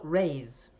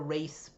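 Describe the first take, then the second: First: The name ends with a 'z' sound. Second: The name ends with an 's' sound. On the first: "I'll just say raise because then it doesn't sound like race" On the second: "That's race as in R A Y S E"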